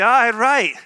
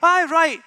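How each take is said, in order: First: It is said in a sarcastic, mocking tone. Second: It is said in a sincere, agreeing tone. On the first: The speaker disagrees and thinks the other is foolish. "that means, no, you're a numpty" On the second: The speaker agrees and accepts what was said. "that means, yes, I agree, that's good"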